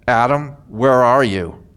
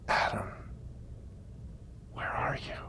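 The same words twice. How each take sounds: First: It is said in a harsh, demanding tone. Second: It is said in a warm, loving tone.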